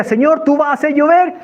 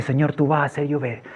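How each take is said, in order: First: High, insistent cry to heaven; bold declaration. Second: Soft, lower murmured prayer; quiet declaration. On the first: Man declaring rain to the Lord, crying out. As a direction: proclaim it up to God. Loud declaration to God while clapping. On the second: Man to the Lord after the first drop, hushed. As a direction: say it privately to God in awe. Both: Retold or imitated.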